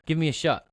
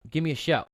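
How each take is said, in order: First: "shot" said where "shout" was meant, short o vowel; quick tongue slip, "shot" with a clipped short vowel. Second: "shout" said right, full ow vowel; fixing the slip, "shout" with a clear ow sound; corrected word. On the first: Host promoting the club tongue-slips "shot" for shout. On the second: Host corrects himself to ask listeners for a shout. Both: Real, not acted.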